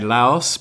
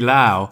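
First: The name ends with a final s sound. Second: The name ends without a final s sound. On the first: The speaker calls it wrong. "some Brits and Europeans say Laos because there is that S" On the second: The speaker calls it right. "it should be Lao"

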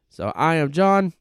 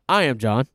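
First: It is said in a put-on accent. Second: It is said in his normal voice.

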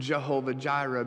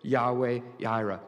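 First: The name begins with a J sound. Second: The name begins with a Y sound. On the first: This is an older reading of the name. The speaker calls it wrong. "we interpreted a dot in the Hebrew as of their vowels" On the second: This is the newer, corrected reading of the name. The speaker calls it right. "So now it's Yahweh Yireh"

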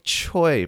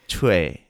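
First: The vowel sounds like the 'oy' in 'boy'. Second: The vowel sounds like the word 'way'. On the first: The speaker calls it wrong. "You would think Choi probably" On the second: The speaker calls it right. "it's like the word way with a"

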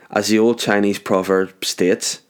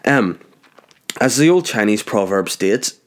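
First: It is said in the speaker's normal accent. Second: It is said in a put-on Chinese accent.

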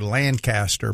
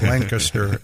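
First: It is said the way Southerners say it. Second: It is said the way Lancaster locals say it.

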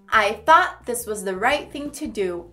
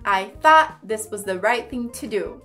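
The two takes are said the same way.

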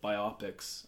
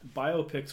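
First: It is said as bi plus opics. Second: It is said as bio plus pics. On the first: The speaker calls it wrong. "if you say the latter, you're just wrong" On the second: The speaker calls it right. "because it's a biographical picture"

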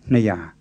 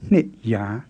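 First: The first syllable is weakened to a short vowel. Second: The first syllable is full, ending in a stop. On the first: The speaker calls it right. "you say ne ya" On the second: The speaker calls it wrong. "instead of nit ya"

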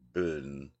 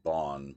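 First: The vowel is a rounded umlaut-like sound. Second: The vowel is a plain open 'o' sound. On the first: This is the real pronunciation. The speaker calls it right. "but I guess it's really Bun" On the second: This is how some people say it. The speaker calls it wrong. "Some people pronounce it Bon"

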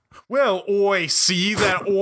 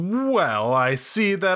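First: It is said in an English accent. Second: It is said without an English accent. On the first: The speaker calls it right. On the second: The speaker calls it wrong.

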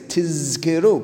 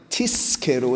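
First: The middle consonant is a clear buzzing z. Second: The middle consonant sounds like a hissing s. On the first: You will be remembered. The speaker calls it right. "v'chen tzarich lehatiz zayin shel tizkeru. You need to say tizkeru" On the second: You will be rewarded. The speaker calls it wrong. "if it sounds like tizkeru, it's a very different meaning"

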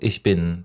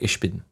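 First: The ch is a soft standard German sound. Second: The ch sounds like sh, as in the north.

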